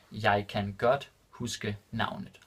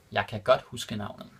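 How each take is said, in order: First: Jeg kan godt huske navnet said slowly and distinctly; careful slow repeat for students; slow and clear. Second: Said in the usual way. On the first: Shown as a demonstration. Teacher repeating the Danish example for learners, slow and clear. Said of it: "repeated slower for learners". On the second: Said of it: "repeated slower".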